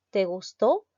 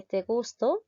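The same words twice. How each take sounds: First: "gustó" as gus-TÓ; stress on last syllable. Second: "gusto" as GUS-to, questioning rise; stress on first syllable. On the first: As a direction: lean on the final TÓ of te gustó. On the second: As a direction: punch GUS in te gusto, ending upward. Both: Shown as a demonstration. Contrasting minimal stress pair.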